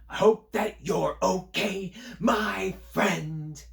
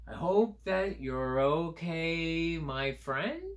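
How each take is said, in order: First: It is said loud and excited. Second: It is said as a questioning line.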